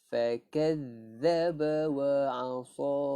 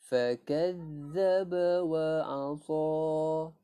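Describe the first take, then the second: No difference in how they are said.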